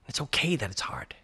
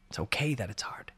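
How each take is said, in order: First: Soft whispered reassurance; whispering. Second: Fainter whisper, almost to himself; whispering, softer. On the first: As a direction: whisper it gently to yourself. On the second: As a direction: let it fade to a hush. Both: Real, not acted. Repeated reassurance to self.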